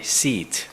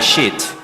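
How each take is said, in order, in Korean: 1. 이 단어는 s 소리로 시작해요. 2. 이 단어는 sh 소리로 시작해요. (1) "say seat" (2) "Don't say sheet"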